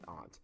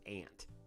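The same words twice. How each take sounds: First: It is said like 'ahnt', with a broad vowel. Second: It is said like 'ant', Tennessee style.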